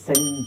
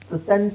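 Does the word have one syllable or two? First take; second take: one; two. First: It is said as one syllable, sent. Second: An extra s syllable comes before sent. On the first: The speaker calls it right. "ಸೆಂಟ್ ಅಂತ ಹೇಳಬೇಕು" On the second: The speaker calls it wrong. "ಸಸೆಂಟ್ ಸಸೆಂಟ್ ಅಂತ ಹೇಳೋ ಅವಶ್ಯಕತೆ ಇಲ್ಲ"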